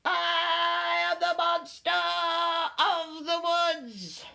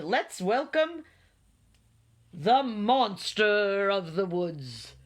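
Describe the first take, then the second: First: High, drawn-out creature voice; little monster. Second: Slow, grand introduction of a guest; beaming. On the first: Small monster introducing itself to friends, high proclamation. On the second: Owl welcoming the monster to the meeting, beaming. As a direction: draw out the name like an announcer. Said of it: "Owl beamed". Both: A narrator's reading.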